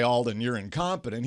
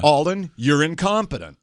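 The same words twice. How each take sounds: First: Quietly restating the words he never said; dropped and softer, matter-of-fact; softer, low-key repeat. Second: Voicing the harsh verdict he heard in his head; a touch of a hurtful jab; imagined accusation, slightly louder. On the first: Retold or imitated. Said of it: "he really didn't say". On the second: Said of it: "the guy basically said in my head".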